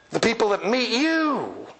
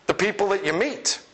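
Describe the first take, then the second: First: "you"를 길게 내려 찍으며 강조; stress on YOU. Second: "you"를 낮게 두고 "meet"을 올려 끝냄; "meet"에 힘을 주고 끝을 올려서; stress on you meet. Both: Shown as a demonstration.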